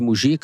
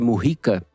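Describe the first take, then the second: First: The name is pronounced the Brazilian Portuguese way. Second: The name is pronounced the Spanish way. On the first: This is how people in Brazil say the name. "A gente vai chamar ele de Mujica, estamos no Brasil" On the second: This is the correct form for Spanish speakers. "O certo é Mujica para quem fala espanhol"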